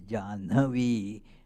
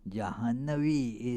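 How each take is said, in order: First: It uses the colloquial vernacular pronunciation. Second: It uses the classical Sanskrit pronunciation. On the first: The speaker calls it wrong. "the pronunciation is Jahnavi in colloquials, but that is not correct" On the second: The speaker calls it right. "is the uh, Sanskrit pronunciation"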